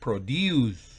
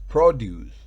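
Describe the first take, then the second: First: The stress is on the last syllable. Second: The stress is on the first syllable. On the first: It means to produce. "Lleva el acento en la última sílaba" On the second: It means farm products like fruit. "significa un producto agrícola"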